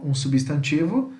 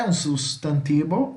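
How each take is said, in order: First: Said in the usual way. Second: "substantivo" said the Spanish way, "sustantibo"; Spanish pronunciation. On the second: Shown as a demonstration. Teacher gives students the Spanish noun term, Spanish pronunciation. Spanish word, then Portuguese gloss.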